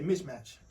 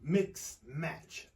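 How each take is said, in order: First: The first word ends with a 'ch' sound. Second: The first word ends with a 'ks' sound. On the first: The speaker calls it right. "You gonna say Mitch match" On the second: The speaker calls it wrong. "you ain't gonna say uh, mix match"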